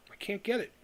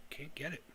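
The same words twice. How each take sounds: First: Said in the usual way. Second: Barely audible, trailing repeat; muttered under breath. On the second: Real, not acted. To himself, repeating the lament almost inaudibly. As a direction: drop it to almost nothing.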